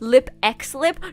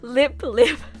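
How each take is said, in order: First: The letter X is spoken between the words. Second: The letter X is left out between the words. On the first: The speaker calls it wrong. "is it lip lip or is it lip x lip?" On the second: The speaker calls it right. "with without the x"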